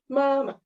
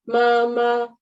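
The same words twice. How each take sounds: First: The second syllable is quick, light and short. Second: Both syllables carry the same high level tone. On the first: "yang ma keduanya ini adalah qingsheng nada netral, dibaca cepat, ringan dan singkat" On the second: "harusnya kan kalau sama mama"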